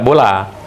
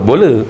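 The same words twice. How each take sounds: First: The final vowel sounds like 'a'. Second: The final vowel sounds like 'e'. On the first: The speaker calls it right. "tetap bola" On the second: The speaker calls it wrong. "tak boleh sebut bola"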